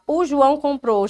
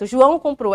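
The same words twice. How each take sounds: First: The opening vowel before the name is clearly pronounced. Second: The opening vowel before the name is dropped. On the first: "ao invés de falar" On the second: "já fala direto"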